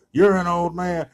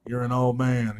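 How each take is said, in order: First: Higher and louder mock taunt; escalating mock trash talk. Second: Lightly voiced jab, mock taunt; mock trash talk. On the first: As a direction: shout the jab, raising the stakes. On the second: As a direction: toss it out like a schoolyard taunt. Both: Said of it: "talking trash".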